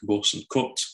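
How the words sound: The vowels are said in a northern English way. "people in the north saying things more like"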